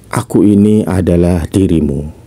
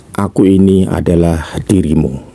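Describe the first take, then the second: The two takes are said the same way.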